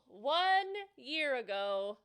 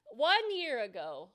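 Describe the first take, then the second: First: "one year ago" said very slowly, each word weighted; slow emphatic repeat. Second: Said in the usual way. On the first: Real, not acted. Streamer showing chat her hair growth, "one year ago" said slowly and heavily. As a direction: stretch "one year ago" out to let it sink in. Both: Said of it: "repeats phrase for effect".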